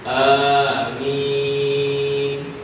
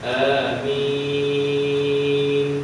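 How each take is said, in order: First: The first vowel is held briefly, medium length. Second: The first vowel is short; the m is drawn out. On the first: "sebutan a itu dibaca panjang dengan kadar dua harakat" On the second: "a tak ada harakat, mim tu empat ataupun enam harakat"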